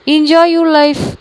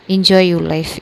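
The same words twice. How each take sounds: First: "enjoy your life" drawn out very slowly, higher and louder; sarcastic jab. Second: "enjoy your life" said lower and flat-toned, bitter; cold bitter repeat. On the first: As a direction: stretch "enjoy" out mockingly. Bitter parting jab. (व्यंग्य से बहुत धीरे खींचकर "enjoy your life") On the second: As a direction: drop the voice and throw it away. Repeated jab, walking away. (धीमी नीची कड़वी आवाज़ में "enjoy your life") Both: Acted.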